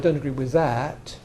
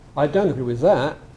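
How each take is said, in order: First: The final t is pronounced as a full t. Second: The final t becomes a glottal stop. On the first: "Instead of" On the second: "take out the, the T ... And so would I"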